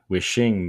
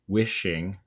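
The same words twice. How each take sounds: First: The stress is on the second syllable. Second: The stress is on the first syllable. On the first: The speaker calls it wrong. "not wishing me like" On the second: The speaker calls it right. "reads based on the emphasis as wishing"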